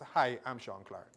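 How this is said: It sounds relaxed and natural.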